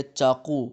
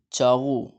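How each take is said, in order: First: چاقو loud, with hard "q": chaa-QOO; rejected q sound. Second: چاغو loud, with throaty "gh": chaa-GHOO; Persian gh sound. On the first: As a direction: say چاقو with a hard back stop. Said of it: "نہیں بولیں گے". (چاقو، سخت قاف کے ساتھ، زور سے) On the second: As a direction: stress چاغو with gh in place of q. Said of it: "وہ قاف کو غین بولتے ہیں". (چاغو، قاف کی جگہ غین، زور سے) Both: Shown as a demonstration.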